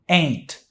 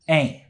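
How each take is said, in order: First: The final T sound is pronounced. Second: The final T sound is left off. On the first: "This is pronounced ain't" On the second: "Some people don't even pronounce the T at the end"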